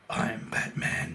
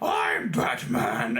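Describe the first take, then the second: First: It is said in a deep, grown-up Batman voice. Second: It is said in a high, undeveloped child's voice.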